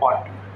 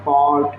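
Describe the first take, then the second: First: The vowel is said short and quick. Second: The vowel is drawn out long. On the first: "जल्दी बोल रहा है" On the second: "खींच के बोलता है"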